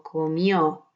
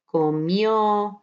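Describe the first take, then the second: First: Comió with the stress on the final ó. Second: Said in the usual way. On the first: Shown as a demonstration. Teacher showing students where the stress falls in Comió, final ó stressed. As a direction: lean on the last syllable, co-MIÓ. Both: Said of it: "Make sure you put the stress on the O".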